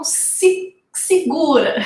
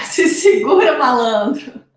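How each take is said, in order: First: Said in the usual way. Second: Laughing through the words; teasing with a chuckle. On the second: Real, not acted.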